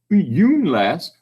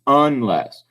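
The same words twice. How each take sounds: First: 'yoonless', first syllable rhyming with moon; long U mispronunciation. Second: Said in the usual way. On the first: Shown as a demonstration. Teacher shows the wrong reading, long U in 'yoonless'. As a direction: put a long 'you' sound in 'yoonless'. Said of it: "I'm not saying yoon". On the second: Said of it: "We're saying unless".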